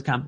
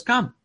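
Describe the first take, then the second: First: Said in the usual way. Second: High, loud single word of command; commanding call. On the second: Retold or imitated. Jesus calling Peter onto the water, loud and high. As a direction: call him across the water, firmly.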